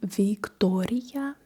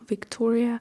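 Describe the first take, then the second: First: It is pronounced the Russian way. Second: It is pronounced the English way.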